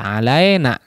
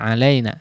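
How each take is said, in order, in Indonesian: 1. Vokal itu terdengar seperti i yang penuh dan jelas. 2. Vokal itu terdengar mendekati e. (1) "jangan sampai tidak atau bunyinya imalah alai alai alaina" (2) "Jadi e atau eh, yang mendekati itu ya"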